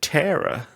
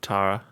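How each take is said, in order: First: The name has an American pronunciation. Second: The name has a non-American pronunciation.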